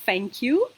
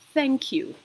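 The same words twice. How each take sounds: First: Thank begins with an f sound. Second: Thank begins with a th sound. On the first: The speaker calls it wrong. "It's not uh" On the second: The speaker calls it right. "it is thank you"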